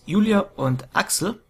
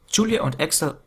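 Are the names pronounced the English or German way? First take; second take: German; English. First: The names are pronounced the German way. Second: The names are pronounced the English way.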